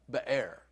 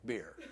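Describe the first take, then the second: First: Be'er in two syllables, beh-AIR; Hebrew pronunciation. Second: Beer as one syllable, like the drink; English pronunciation. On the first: Preacher teaching the Hebrew word for well, Be'er said beh-AIR. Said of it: "Be'er, it means". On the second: Preacher comparing it to the drink, beer in one English syllable. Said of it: "like beer". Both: Shown as a demonstration.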